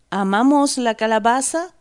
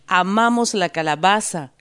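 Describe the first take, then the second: First: 'Amamos la calabaza' pitched high and louder, rising at the end; incredulous protest. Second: Said in the usual way. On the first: A narrator's reading. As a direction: throw 'Amamos la calabaza' back as a disbelieving question. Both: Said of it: "protesta ella".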